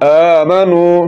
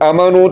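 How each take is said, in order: First: The first vowel is lengthened. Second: The first vowel is short. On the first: The speaker calls it right. "کیا صحیح لفظ ہے آمنو" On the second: The speaker calls it wrong. "یہ لفظ پڑھا جائے گا جو کہ غلط ہے"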